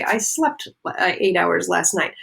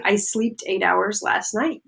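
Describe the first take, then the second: First: Said in the usual way. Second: "slept" said slowly as "sleeped"; wrong past tense. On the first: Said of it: "that's not the right form". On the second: Shown as a demonstration. Teacher showing an understandable mistake, slept said as sleeped. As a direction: turn slept into sleeped, long ee. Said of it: "understandable because I am following the rule".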